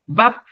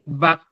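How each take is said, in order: First: The word is said with a non-mid tone. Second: The word is said with a mid tone. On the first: It means dried. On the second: It means meat.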